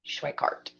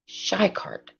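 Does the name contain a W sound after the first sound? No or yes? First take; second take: yes; no. First: The name is said with a W sound. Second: The name is said without a W sound. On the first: The speaker calls it right. "do pronounce the W" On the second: The speaker calls it wrong. "you don't pronounce the W"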